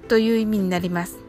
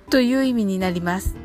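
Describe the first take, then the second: The two takes are said the same way.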